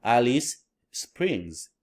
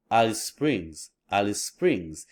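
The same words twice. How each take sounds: First: "Alice Springs" slow, split in two; separated words. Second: "Alice Springs" as one smooth unit, single S; linked chunk. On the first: Teacher contrasting for learners, slow separated words. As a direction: leave a space between "Alice" and "Springs". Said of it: "we can link those and chunk". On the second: Teacher modelling for learners to copy, words linked. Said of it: "try to speak like that". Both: Shown as a demonstration.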